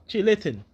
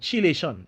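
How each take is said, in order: First: The word ends with a 'tin' sound. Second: The word ends with a 'shun' sound. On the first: It follows the originator's own pronunciation. "the way how Sebi pronounced it was not like that" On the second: It follows the standard pronunciation. "basically it's Chilation"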